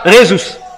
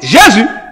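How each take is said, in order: First: The name begins with an R sound. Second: The name begins with a J sound. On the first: This is how it is said in Spanish. "en espagnol, le nom J est prononcé R" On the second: This is how it is said in French. "en français on dit"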